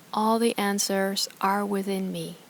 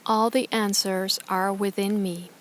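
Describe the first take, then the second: No difference in how they are said.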